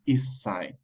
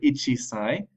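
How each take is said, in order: First: It is contracted with a doubled s sound. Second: It is said in full with a chi sound. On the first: The speaker calls it right. "one years old is issai" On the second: The speaker calls it wrong. "just be careful you don't say ichisai"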